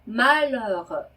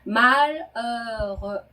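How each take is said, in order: First: The word is said at normal speed. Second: The word is said slowly and deliberately.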